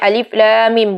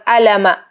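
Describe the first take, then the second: First: Each letter is said by its full name. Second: The letters are run together as short syllables. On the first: The speaker calls it right. "bacanya alif lam mim" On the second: The speaker calls it wrong. "bukan alama ya"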